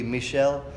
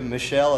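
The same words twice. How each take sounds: First: Michel said the French way, "mee-SHELL"; French pronunciation. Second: Said in the usual way. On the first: Shown as a demonstration. Teacher giving congregation the French form of a name, Michel pronounced "mee-SHELL". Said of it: "that same name in French". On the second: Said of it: "as a woman's name here in America".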